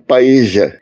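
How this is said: It is said with an Argentine accent.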